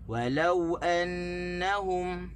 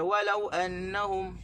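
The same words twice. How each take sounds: First: The stress is on the second syllable, lau. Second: The stress is on the first syllable, wa. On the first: The speaker calls it right. "kita kena tekan di, di lam" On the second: The speaker calls it wrong. "kita tak boleh baca walau annahum, tak boleh tekan di waw"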